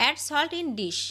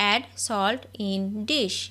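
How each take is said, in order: First: Said in the usual way. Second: Very slow, word by word; each word drawn out for learners to copy; slow dictation. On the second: Shown as a demonstration. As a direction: spell it out slowly for the class. Repeated slowly for learners.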